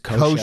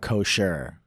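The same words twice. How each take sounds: First: The R sound is soft and weak. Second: The R sound is hard and strong. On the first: The speaker calls it right. "It's kosher" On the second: The speaker calls it wrong. "with a hard R"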